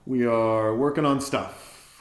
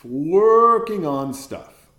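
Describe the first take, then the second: First: Said in the usual way. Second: "Working on stuff" drawn out very slowly and louder; stress on Working. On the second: Shown as a demonstration. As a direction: lean hard and slow into "Working".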